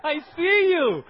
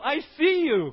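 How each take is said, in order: First: Slower, louder teasing call-out; teasing, laughing. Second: Said in the usual way. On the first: Real, not acted. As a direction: tease them knowingly.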